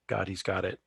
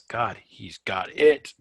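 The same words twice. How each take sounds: First: It is said flatly, with no emphasis. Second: It is said lively, with strong emphasis. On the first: The speaker calls it wrong. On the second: The speaker calls it right.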